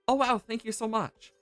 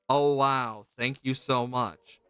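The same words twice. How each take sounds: First: It sounds sincere and grateful. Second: It sounds sarcastic and ungrateful.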